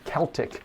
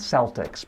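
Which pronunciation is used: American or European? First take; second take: European; American. First: It is said the European way. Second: It is said the American way. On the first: "in Europe, people talk about the uh, Celtic" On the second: "I live here in the United States, so people are used to hearing about the Boston Celtics"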